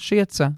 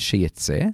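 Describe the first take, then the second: First: The word is read with past-tense vowels. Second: The word is read with future-tense vowels. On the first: It refers to something that already happened. The speaker calls it right. "אביי מתקן אותנו שזה עבר" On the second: It refers to something that will happen. The speaker calls it wrong. "עד עכשיו חשבנו שזה עתיד"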